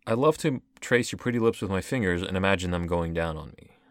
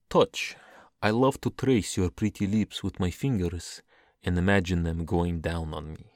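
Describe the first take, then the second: First: Quick, incredulous quote of the verse; fast, baffled read-back. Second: Deliberate, sensual verse delivery; performed love-poem reading; poetry reading. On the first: Retold or imitated. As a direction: rattle the line off in disbelief. I'm just baffled. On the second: Acted. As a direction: read the lines slowly and pointedly. Resumes accent to read poem.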